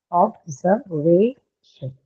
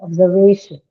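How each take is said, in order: First: "Observation" drawn out very slowly, each syllable apart. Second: "Observation" run together, loud stress on "va"; natural native articulation. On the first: Teacher showing where the stress falls, "Observation" syllable by syllable. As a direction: break "Observation" into slow, separate syllables. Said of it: "So you mark the stress". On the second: Teacher showing how natives say it, "Observation" joined up with stressed "va". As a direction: say "Observation" as one word, punching "va". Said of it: "That's how native speakers would articulate that word".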